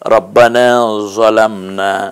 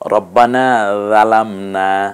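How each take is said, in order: First: The second word starts with a heavy emphatic 'z'. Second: The second word starts with a soft 'dh' sound. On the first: "জোয়া দিয়ে বলেছি" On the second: "রাল দিয়ে বলেছি"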